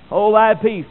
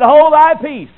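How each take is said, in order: First: Said in the usual way. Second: Loud, high, stern command to a demon; commanding rebuke. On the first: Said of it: "The word means to muzzle an ox". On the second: Acted. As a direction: bark the order with full authority. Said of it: "Jesus said".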